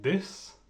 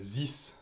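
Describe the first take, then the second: First: It begins with a d sound. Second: It begins with a z sound. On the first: The speaker calls it right. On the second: The speaker calls it wrong.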